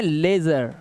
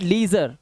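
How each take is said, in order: First: लेजर with ay, lay-zer; teacher's model लेजर, "LAY-zer"; correct pronunciation. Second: Leisure said lee-zer with a long ee; misreading leisure with ee in the first syllable; wrong pronunciation. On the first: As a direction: say लेजर as the model, first vowel ay not ee. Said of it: "इसको पढ़ना है लेजर". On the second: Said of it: "it's not leisure". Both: Shown as a demonstration.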